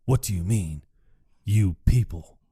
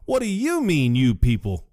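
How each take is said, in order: First: Low, gruff put-on voice, lightly done; Kirk Lazarus voice. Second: An indignant echo, lightly voiced; Brandon Jackson voice. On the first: Retelling the movie, Kirk questions "you people" in a low put-on voice. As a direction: drop the voice low for the fake tough guy.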